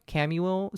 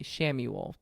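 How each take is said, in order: First: The name starts with a K sound. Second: The name starts with an SH sound. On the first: "I'm going to mispronounce this" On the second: "I think it's Sham, Shamuel"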